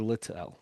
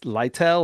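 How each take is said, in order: First: The first syllable rhymes with 'lit'. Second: The first syllable rhymes with 'light'. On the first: "or Littell?" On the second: "Is it Light Lytel"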